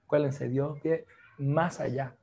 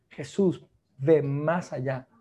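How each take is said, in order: First: Said in the usual way. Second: "ve más allá" drawn out, leaning on "ve"; slow, weighty "Jesús ve más allá"; stress on ve, slowly. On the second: Acted. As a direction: press each word of "ve más allá" slowly. Preacher repeats key line.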